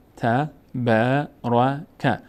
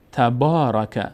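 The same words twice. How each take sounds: First: تبارک with the long a of با stretched very slowly; slow, chanted تبارک; Quranic recitation. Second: Said in the usual way. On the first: Shown as a demonstration.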